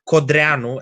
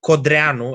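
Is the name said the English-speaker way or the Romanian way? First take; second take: Romanian; Romanian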